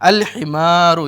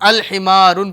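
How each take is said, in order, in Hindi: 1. शब्द एक सादे स्वर पर खत्म होता है। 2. शब्द के अंत में एक अतिरिक्त n की आवाज़ जुड़ी होती है। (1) "आपकी तनवीन क्या है, गिर जाएगी" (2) "तनवीन भी वहाँ पे साथ में लगा देते हैं"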